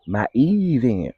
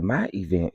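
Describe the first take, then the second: First: EVENT with a long, high-swooping first vowel; emphatic stress on EVENT. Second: Said in the usual way. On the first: Real, not acted. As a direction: stretch the E of EVENT slowly and pointedly. Repeats phrase for emphasis.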